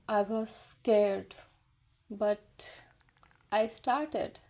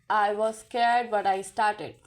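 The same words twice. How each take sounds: First: It is said with lively, emotional modulation. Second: It is said flat, like a robot.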